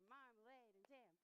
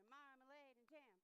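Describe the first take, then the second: The two takes are said the same way.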